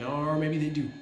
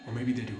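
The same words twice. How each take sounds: First: Or maybe they do, with maybe said louder and higher; a sly upturn on maybe; teasing twist. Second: Said in the usual way. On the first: Shown as a demonstration. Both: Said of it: "repeated line".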